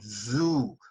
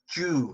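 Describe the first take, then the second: First: It begins with a buzzing z sound. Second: It begins with a j sound. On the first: The speaker calls it right. "Z O O is a z sound" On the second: The speaker calls it wrong. "They may pronounce it as"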